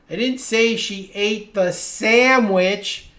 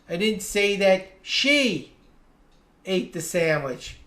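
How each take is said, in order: First: The stress falls on the word sandwich. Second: The stress falls on the word she. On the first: She ate some other food. "Maybe I said she ate the pizza or the ice cream" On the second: Someone else ate the sandwich. "I said someone ate the sandwich, but it wasn't her"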